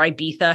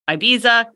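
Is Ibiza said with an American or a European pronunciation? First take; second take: European; American. First: Ibiza is said with a European-style pronunciation. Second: Ibiza is said with a plain American pronunciation.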